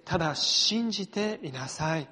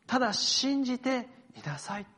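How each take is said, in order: First: Said in the usual way. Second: ただ信じていなさい lifted higher, ending on a rise; Jesus's reassurance. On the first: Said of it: "ご一緒にお読みしましょう". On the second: Retold or imitated. Pastor voicing Jesus to Jairus, raised and hopeful. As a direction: say ただ信じていなさい higher, as a gentle lift of hope. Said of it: "そして続いて".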